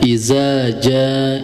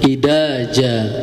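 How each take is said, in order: First: The middle consonant is a buzzing z sound. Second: The middle consonant is a plain d sound. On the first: "bisa tertukar dengan huruf zain" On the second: "ada yang juga membaca dengan huruf dal"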